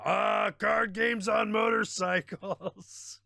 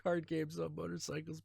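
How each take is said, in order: First: Slow, high, hammed-up quote voice; mock quote. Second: Said in the usual way. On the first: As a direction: drag out the meme line theatrically. Quoting a meme line.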